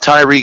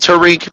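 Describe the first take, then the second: First: The first syllable sounds like 'ty'. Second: The first syllable sounds like 'ta'. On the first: The speaker calls it right. "but it's Tyreek Hill traditionally" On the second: The speaker calls it wrong. "Some people call him Tariq"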